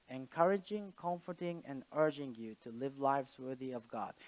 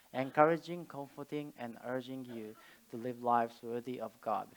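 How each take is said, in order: No difference in how they are said.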